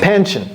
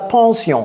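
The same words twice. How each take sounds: First: The word is pronounced with English sounds. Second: The word is pronounced with French sounds. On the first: The speaker calls it right. "On dit pension en anglais" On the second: The speaker calls it wrong. "Ce n'est pas pension"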